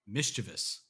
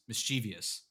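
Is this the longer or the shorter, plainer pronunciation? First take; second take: shorter; longer. First: The word is said in a shorter, plainer form. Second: The word is said in a longer, fuller form. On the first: The speaker calls it right. "But actually it's just mischievous" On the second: The speaker calls it wrong. "this is the way that I said it"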